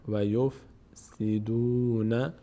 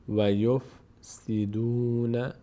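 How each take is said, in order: No difference in how they are said.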